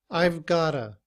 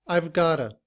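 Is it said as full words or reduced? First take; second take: reduced; reduced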